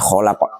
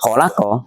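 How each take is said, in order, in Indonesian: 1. Kata ini diakhiri konsonan, vokalnya dihilangkan. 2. Kata ini diakhiri dengan vokal pendek. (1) "kalau di wakaf menjadi kholako" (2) "Contohnya kholako"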